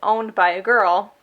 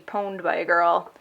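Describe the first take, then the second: First: The first word starts with a vowel sound. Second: The first word starts with a P sound. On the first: "how I would say it" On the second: "it might be pwned by a girl"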